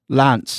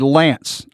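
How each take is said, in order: First: The name is said with a non-American vowel. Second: The name is said with an American vowel. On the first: This copies how the name's owner says it. "I've been actually practicing to see if I can pronounce your name like you pronounce it" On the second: This is how people usually say it locally. "we, here in America, we say Lance"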